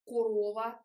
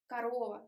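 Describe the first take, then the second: First: "корова" with a full round first O, ko-ROH-va; wrong unreduced O. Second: "корова" as kuh-ROH-va, short lax first vowel; correct schwa reduction. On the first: Showing students a wrong "корова", first O fully rounded. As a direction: pronounce the first O of "корова" as written. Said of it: "It's not корова or корова". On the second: Teacher giving the right "корова", first vowel reduced to schwa. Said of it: "it's корова". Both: Shown as a demonstration.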